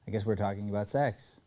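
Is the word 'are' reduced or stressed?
reduced. The word 'are' is contracted and unstressed. The speaker calls it wrong. "instead of"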